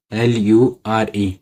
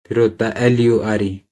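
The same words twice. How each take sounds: First: L U R E letter by letter, slow; spelled out slowly. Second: Said in the usual way. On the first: Shown as a demonstration.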